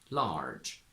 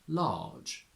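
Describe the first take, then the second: First: Said in an American accent, R pronounced. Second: Said in a British accent, R silent. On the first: "From American to British" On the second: "From American to British"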